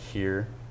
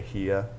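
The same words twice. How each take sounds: First: The final r sound is pronounced. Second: The final r sound is dropped. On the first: "instead of saying like here" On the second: "R's you usually kind of drop"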